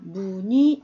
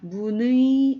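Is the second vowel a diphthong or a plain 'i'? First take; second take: plain i; diphthong. First: The second vowel is a plain 'i' sound. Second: The second vowel is the gliding 'ui' diphthong. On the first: The speaker calls it right. "그냥 어, 이처럼 무늬 이렇게 납니다" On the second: The speaker calls it wrong. "이렇게 내기 힘들죠"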